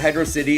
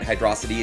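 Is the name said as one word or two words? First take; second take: two words; one word. First: It is said as two separate words. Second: It is said as one blended word. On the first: This is how the speaker has always said it. "I pronounce it Hydro City" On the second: Other people say it this way. "people were calling it Hydrocity"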